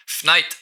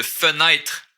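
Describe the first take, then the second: First: Fenêtre squeezed to "fnaïtre", first vowel dropped; Québécois fenêtre without the first e; skipped syllable. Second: Said in the usual way. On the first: Shown as a demonstration. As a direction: say fenêtre as two consonants run together, "fn-". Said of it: "j'ai skippé une syllabe ici". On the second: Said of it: "Au lieu de fenêtre".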